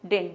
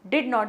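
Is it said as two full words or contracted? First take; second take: contracted; full. First: It is said as one contracted word. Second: It is said as two full separate words. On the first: The speaker calls it right. "Contracted form" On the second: The speaker calls it wrong. "इसे हम डिड नॉट नहीं बोलते"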